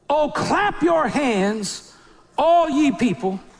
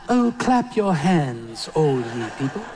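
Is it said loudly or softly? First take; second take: loudly; softly. First: It is said loudly, like a shout. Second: It is said softly, like a lullaby.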